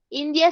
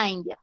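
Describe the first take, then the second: First: Said in the usual way. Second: "India" said with an English accent; English pronunciation. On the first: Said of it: "en inglés". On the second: Shown as a demonstration. Teacher giving students the English country name, "India" in English pronunciation. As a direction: say "India" as an English word, not Spanish. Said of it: "sí se dice India".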